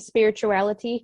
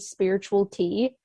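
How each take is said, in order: First: The name ends with a light 'ty' sound. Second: The name ends with a separate word 'tea'. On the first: The speaker calls it right. "thank you for saying spirituality" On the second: The speaker calls it wrong. "so many people call me spiritual tea"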